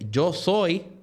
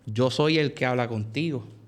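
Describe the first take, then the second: First: It is said with a pause after 'yo soy'. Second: It is said without a pause after 'yo soy'. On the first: The speaker calls it right. "hay una coma" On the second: The speaker calls it wrong. "Jesús no le dijo"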